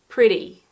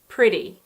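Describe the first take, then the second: First: The middle consonant sounds like a soft D. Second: The middle consonant sounds like a soft D.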